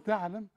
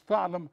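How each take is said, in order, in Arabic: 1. صوت التاء خفيف وبسيط. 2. صوت التاء ثقيل ومفخم. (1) "هل تعلم مش تعلم" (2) "أو تاء تخينة، لا"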